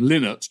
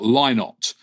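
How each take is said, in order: First: The name sounds like a bird's name. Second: The name does not sound like a bird's name. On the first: This is the common pronunciation he disliked. The speaker calls it wrong. "Dad always was annoyed when people pronounced his name Lynott" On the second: This is the pronunciation he preferred. The speaker calls it right. "and not Lynott"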